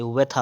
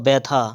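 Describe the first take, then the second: First: व्यथा starting with v, vethā; correct pronunciation. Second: व्यथा starting with b, bethā; closed-lip b opening व्यथा; wrong pronunciation. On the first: Teacher correcting, व्यथा as vethā. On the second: Teacher showing the error, व्यथा as bethā. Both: Shown as a demonstration. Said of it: "नहीं, व्यथा होता है".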